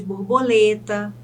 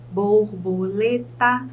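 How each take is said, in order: First: Said in the usual way. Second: Slow "borboleta", split bor, bo, le, ta; four measured beats in "borboleta"; syllable by syllable. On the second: Shown as a demonstration. Teacher counts syllables for students, "borboleta" syllable by syllable. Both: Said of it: "eu chamo de polissílaba".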